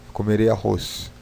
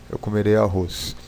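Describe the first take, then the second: The two takes are said the same way.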